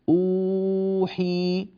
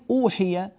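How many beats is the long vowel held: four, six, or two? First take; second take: four; two. First: The long vowel is held for four beats. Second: The long vowel is held for two beats. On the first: "وأربع حركات" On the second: "حركتين"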